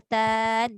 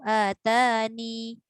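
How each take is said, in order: First: The word ends on the n sound. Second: The word ends with a final i vowel. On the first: "Hazafiyah maknanya atan" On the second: "Isbat ya tu maksudnya masukkan ya tu"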